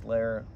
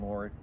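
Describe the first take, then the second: First: The name is said with an 'eh' vowel. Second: The name is said with an 'oh' vowel. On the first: The speaker calls it right. "It's Lehr" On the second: The speaker calls it wrong. "So I've been saying Lohr"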